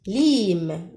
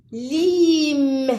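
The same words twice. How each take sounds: First: Said in the usual way. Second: "Lime" held long on the i, pitched up; sounded-out word. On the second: Shown as a demonstration. Teacher comparing lookalike words, "Lime" drawn out. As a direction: stretch "Lime" high through vowel and m. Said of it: "on a le mot lime".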